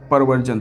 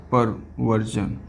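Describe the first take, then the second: First: Said in the usual way. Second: Very slow, softer, lower delivery; slow dictation. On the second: Real, not acted. Teacher repeating the new term for students, slow dictation. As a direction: draw out perversion slowly and quietly.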